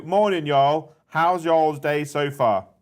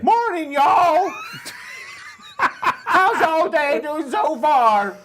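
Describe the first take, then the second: First: Put-on American accent. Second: High, loud, slow Southern drawl with laughter; over-the-top American accent. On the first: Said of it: "Is that your best American accent?". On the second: Acted. Cohost asks him to redo the chat message, hammed-up American accent. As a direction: ham up a Texan cowboy greeting. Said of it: "try again with an American accent".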